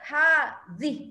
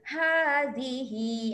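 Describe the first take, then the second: First: The word ends on a bare h sound. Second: The word ends with a short hi vowel. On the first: The reader stops on this word. "Ha zih tu jadi pendek" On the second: The reading continues without stopping. "hi kita panggil mad silah qasirah"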